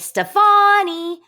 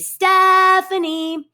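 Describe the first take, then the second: First: The name is called out in a French style. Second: The name is called out in an English style. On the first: "or in France rather, they would say" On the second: "If I'm going to call my dog Stephanie home, I'm going to say"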